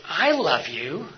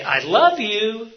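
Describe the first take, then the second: First: Slow, drawn out with a questioning rise at the end; stretched I love you with a rising ending. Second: Higher, louder, slow exasperated I love you; fed-up I love you, louder and slower. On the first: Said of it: "make that one sentence mean all sorts of different things". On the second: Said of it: "By just sounding exasperated or not". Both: Shown as a demonstration.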